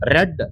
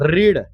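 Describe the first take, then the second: First: The word has a short 'e' vowel. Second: The word has a long 'ee' vowel. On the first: It is the past tense. "ಅದ್ರ ಉಚ್ಚಾರಣೆ change ಆಕತಿ" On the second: It is the present tense. "Spelling same ಉಳಿದೈತಿ, ಅದ್ರ ಉಚ್ಚಾರಣೆ change ಆಕತಿ"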